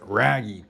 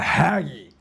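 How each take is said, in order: First: The name is said with a North American pronunciation. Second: The name is said with a Brazilian pronunciation. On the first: "In North American, you want to pronounce it Raggy" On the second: "I've been told down here it's the Haggy"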